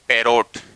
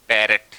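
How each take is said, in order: First: The second syllable sounds like 'rot'. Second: The second syllable sounds like 'ret'. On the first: The speaker calls it wrong. "बोलते हैं पैरोट" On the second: The speaker calls it right. "लेकिन होता क्या है?"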